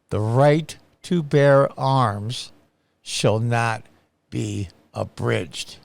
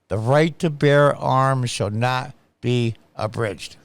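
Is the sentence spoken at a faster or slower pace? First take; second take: slower; faster. First: The sentence is spoken slowly and deliberately. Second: The sentence is spoken at a normal pace.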